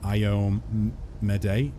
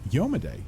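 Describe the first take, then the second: First: The name begins with two vowels, ee-oh. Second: The name begins with a y sound, yo. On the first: This is how the listener says it. "you pronounce it Iomade" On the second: This is how it is said in the speaker's country. "In my country, we use Yo- Yomade"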